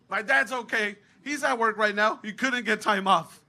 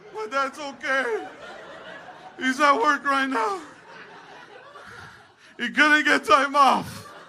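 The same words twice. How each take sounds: First: It is said at a normal speed. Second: It is said slowly, sounding hurt.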